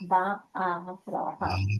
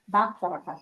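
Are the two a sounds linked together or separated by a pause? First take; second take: paused; linked. First: A short pause separates the two a sounds. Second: The two a sounds merge into one drawn-out vowel. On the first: This is how some learning videos say it. The speaker calls it wrong. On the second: This is how people speak on the street. The speaker calls it right. "you make it a little prolonged uh, on that va"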